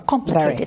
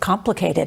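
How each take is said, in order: First: It is said in a put-on accent. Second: It is said in a normal voice.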